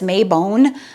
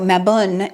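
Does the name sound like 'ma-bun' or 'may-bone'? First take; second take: may-bone; ma-bun. First: The name is said as may-bone. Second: The name is said as ma-bun. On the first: The speaker calls it wrong. "we might think of it as Maybone" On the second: The speaker calls it right. "ma, like cat, and bun, like bun"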